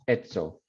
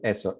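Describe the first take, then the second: First: The middle consonant is a ts sound. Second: The middle consonant is a plain s sound. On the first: "S that sometimes is pronounced T S" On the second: "instead of eso"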